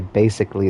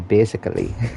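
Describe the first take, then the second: First: It is said in the speaker's plain accent. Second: It is said in an imitated Indian accent. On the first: "they don't say basically" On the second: "my favorite word to say in an Indian accent is basically"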